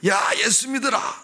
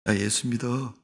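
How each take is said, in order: First: It is said earnestly and loudly. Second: It is said casually and indifferently.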